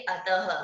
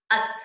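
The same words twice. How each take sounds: First: अतः ending in an audible ह, "a-ta-ha"; with visarga. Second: अत short, stopping on the त; without visarga. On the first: Teacher showing अतः read with visarga. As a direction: add a breath of ह after त in अतः. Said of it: "विसर्ग लग गया तो कैसे पढ़ेंगे". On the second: Teacher showing अत read without visarga. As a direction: end अत on त, no ह sound. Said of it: "बिना विसर्ग के पढ़ के दिखाऊं". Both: Shown as a demonstration.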